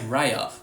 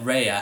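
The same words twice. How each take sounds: First: The vowel has an Australian quality. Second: The vowel has a southern English quality. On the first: "How come I say Raya? ... my ancestors moved ... to South Australia" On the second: "How come I don't say it Raya?"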